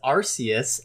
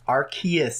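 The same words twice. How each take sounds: First: The start sounds like 'arse'. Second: The start does not sound like 'arse'. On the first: This is how it is said in Japan. "that's how they pronounce it in Japan" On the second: This is the official English name. "Arceus is the English pronunciation"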